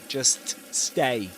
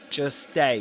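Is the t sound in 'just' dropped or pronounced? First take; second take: pronounced; dropped. First: The t sound in 'just' is pronounced. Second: The t sound in 'just' is dropped. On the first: "He doesn't say" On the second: "He says"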